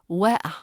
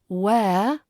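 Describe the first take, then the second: First: The vowel is split into two separate syllables. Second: The vowel glides smoothly within one syllable. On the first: The speaker calls it wrong. "e plus a in two distinct syllables" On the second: The speaker calls it right. "that smooth glide"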